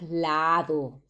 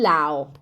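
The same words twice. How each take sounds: First: The d between the vowels is clearly pronounced. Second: The d between the vowels is dropped. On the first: "nosotros no decimos lado" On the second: "Decimos así"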